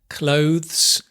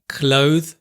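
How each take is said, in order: First: The final consonant sound is clearly pronounced. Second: The final consonant sound is dropped. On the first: The speaker calls it right. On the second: The speaker calls it wrong.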